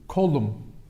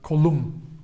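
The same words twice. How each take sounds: First: The stress is on the first syllable. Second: The stress is on the second syllable. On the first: It means I am an arm. "they don't take the stress on upon uh, themselves" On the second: It means my arm. "the stress is where the possessive suffix is"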